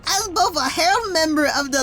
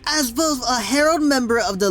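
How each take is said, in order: First: It is read in a put-on character voice. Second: It is read in an ordinary speaking voice. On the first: "I want to do this voice" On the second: "I'm just doing my normal voice now"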